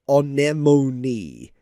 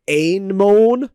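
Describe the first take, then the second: First: Anemone said as a-NEM-o-nee, four syllables; right pronunciation. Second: Anemone said as AIN-mone, two syllables; wrong pronunciation. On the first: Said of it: "you have to say anemone". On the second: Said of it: "it is not Anemone". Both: Shown as a demonstration.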